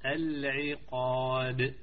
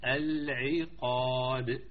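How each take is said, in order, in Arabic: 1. صوت q ثقيل وممتلئ. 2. صوت q ثقيل وممتلئ.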